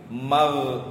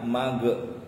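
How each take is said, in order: First: The final consonant is released with continuing airflow. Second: The final consonant bounces with an added vowel. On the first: The speaker calls it right. "tetapi mal" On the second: The speaker calls it wrong. "Ada yang dipantulkan mage. Ini bukan mage, bukan kolkolah"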